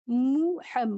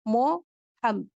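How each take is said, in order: First: The first vowel sounds like 'mu'. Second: The first vowel sounds like 'mo'. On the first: "मु" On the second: "मो"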